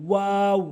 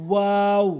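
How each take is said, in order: No difference in how they are said.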